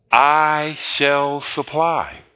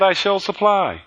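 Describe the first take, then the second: First: Slow solemn quote. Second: Said in the usual way. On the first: Acted. Quoting God very slowly.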